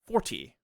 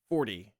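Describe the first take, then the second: First: The T in the middle is crisp. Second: The T in the middle sounds like D. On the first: The speaker sounds German. "a German who's speaking English would say forty" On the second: The speaker sounds American. "a American will say forty, F O R D Y"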